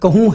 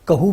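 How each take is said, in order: First: The final vowel is long. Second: The final vowel is shortened.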